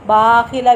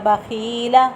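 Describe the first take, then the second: First: The first syllable is drawn out long. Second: The second syllable is drawn out long. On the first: "बाखिला भी नहीं पढ़ना, बा लंबा हो जाएगा" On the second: "ऐसे भी नहीं पढ़ना बाखीला... खा लंबा हो गया"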